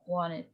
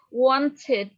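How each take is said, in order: First: It is said with an American English accent. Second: It is said with a British English accent. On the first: "Kalau American English" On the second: "Wanted itu, eee, British English"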